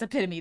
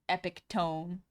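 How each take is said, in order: First: The ending does not sound like tome. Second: The ending sounds like the word tome. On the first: The speaker calls it right. "I know it's epitome though" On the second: The speaker calls it wrong. "Epitome is fun to say"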